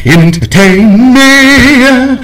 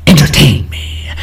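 First: Entertain me sung out higher and very slow; hammed-up theatrical demand; mock grand demand. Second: Said in the usual way. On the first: Shown as a demonstration. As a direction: stretch it out like a big finale chant.

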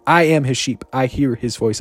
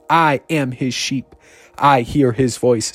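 First: Brisk repeat of the declaration; quicker repeat. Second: Slow, measured declaration; deliberate call for repetition; slow repeat-after-me. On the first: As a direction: say it more quickly, running straight through. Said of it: "I'm saying it super fast". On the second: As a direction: lead them slowly, one word at a time. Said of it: "say this after me". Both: Shown as a demonstration.

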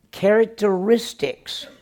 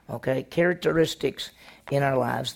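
First: "characteristics" drawn out slowly and pitched high; stretched keyword. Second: Said in the usual way. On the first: Shown as a demonstration. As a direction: lean on "characteristics", slow and lifted. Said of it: "What characteristics are in our lives?".

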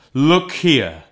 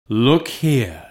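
First: Higher, louder urgent ghost; urgent exclamation. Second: A hint of a grave ghost, restrained; lightly voiced solemn spirit. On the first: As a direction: look here, pressed hard on Scrooge. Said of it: "exclaimed the ghost". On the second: Ghost shows Scrooge the children. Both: A narrator's reading.

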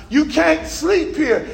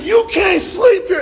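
First: Said in the usual way. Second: Retold angry yell at a homeless man; hostile. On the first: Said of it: "I shook him". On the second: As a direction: snap it at him, fed up. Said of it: "And I got hostile".

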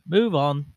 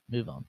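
First: Barked loudly at himself; loud self-command. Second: Said in the usual way. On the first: Acted. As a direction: order yourself loudly to move on. Telling himself to move on.

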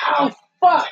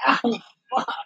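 First: Higher, louder mock cry of pain; imitating a wrestler yelling in pain; imitated pain yell. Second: A lighter mock yelp of pain; toned-down imitation of a hurt wrestler. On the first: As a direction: yelp it like he just got hit. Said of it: "when he goes". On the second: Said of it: "And he goes".

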